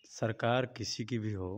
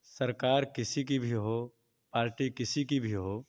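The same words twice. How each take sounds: First: Soft, low-pitched hesitant statement; too quiet. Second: Slightly louder. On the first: Interviewee answering a reporter on governments, too quiet. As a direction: say it under-projected, well below normal volume. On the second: Interviewee asked to speak up, slightly louder. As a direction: repeat it with a little more volume. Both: Real, not acted. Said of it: "थोड़ा तेज बोलिए".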